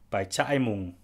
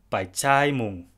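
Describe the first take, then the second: First: A catch in the throat splits the two vowels. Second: The middle vowel is a long a. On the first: "with a raka in between the two vowels" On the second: "The first one is with a long vowel, in this case a long a"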